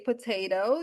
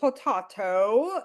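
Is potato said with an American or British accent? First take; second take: American; British. First: It is said with an American accent. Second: It is said with a British accent.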